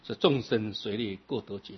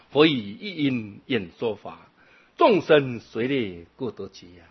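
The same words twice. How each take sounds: First: Said in the usual way. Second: Slow, measured chant-like reading of the verse 众生随类各得解; slow sutra recitation. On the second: Acted. Monk reciting a sutra line to the assembly, slow chanting. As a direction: intone each syllable evenly and slowly.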